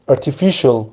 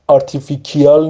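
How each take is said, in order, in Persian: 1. صامت وسط کلمه صدای sh است. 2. صامت وسط کلمه صدای k است.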